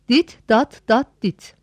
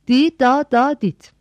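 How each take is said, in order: First: Every syllable ends with a t sound. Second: Only the last syllable ends with a t sound. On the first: Each element sounds like a separate letter. The speaker calls it wrong. "P harfini dit veya dat olarak seslendirelim" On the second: The signal is sounded as one unbroken letter. The speaker calls it right. "Oysa doğrusu D, da, da, dit olmalıydı"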